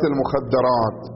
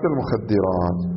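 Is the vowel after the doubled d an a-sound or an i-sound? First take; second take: a-sound; i-sound. First: The vowel after the doubled d is an a-sound. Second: The vowel after the doubled d is an i-sound. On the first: It means secluded chaste women. The speaker calls it wrong. "ولا تقل تجارة المخدرات" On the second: It means narcotic drugs. The speaker calls it right. "قل مخدرات"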